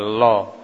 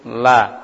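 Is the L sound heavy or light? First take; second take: heavy; light. First: The L is heavy and thick, darkening the vowel. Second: The L is light and thin, with a clear vowel. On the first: "dibaca tebal" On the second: "ini bacaan tipis"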